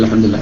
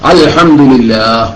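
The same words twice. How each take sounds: First: It is recited quickly with sounds dropped. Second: It is recited slowly with every sound clear. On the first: The speaker calls it wrong. "Speed കൂടുമ്പോ അങ്ങനെ ആയിപ്പോകും" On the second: The speaker calls it right. "അങ്ങനെയാണ്"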